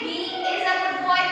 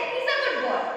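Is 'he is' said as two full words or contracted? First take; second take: full; contracted. First: He and is are said as two full words. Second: He and is are joined into one syllable. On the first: The speaker calls it wrong. "I won't say he is a good boy in informal" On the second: The speaker calls it right. "I'll say he's a good boy"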